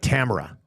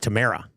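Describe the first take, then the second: First: The name is said to rhyme with camera. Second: The name is said not rhyming with camera.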